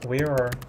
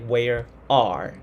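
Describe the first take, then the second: First: The two words are linked together. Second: The two words are said separately. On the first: The speaker calls it right. "They will say where where are where are so like that" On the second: The speaker calls it wrong. "They will not say where are"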